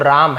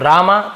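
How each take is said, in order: First: The name ends on the consonant, no final vowel. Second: The name ends with an added 'a' vowel. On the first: "but इसका उच्चारण राम होगा" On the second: "रामा लिखे तो रामा पढ़ेंगे"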